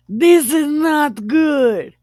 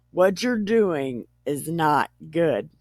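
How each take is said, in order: First: High, loud, drawn-out verdict; hammed-up scolding; emphatic mock disapproval. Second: Said in the usual way. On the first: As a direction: stretch it out in comic alarm. Father-in-law's verdict, hammed up.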